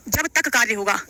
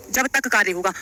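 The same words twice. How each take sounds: The two takes are said the same way.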